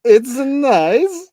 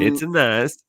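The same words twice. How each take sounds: First: High, slow, loud Borat drawl; Borat accent. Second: High, loud Borat impression; Borat accent. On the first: Retold or imitated. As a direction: stretch it out like Borat. Echoing Borat catchphrase. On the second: Imitating Borat catchphrase.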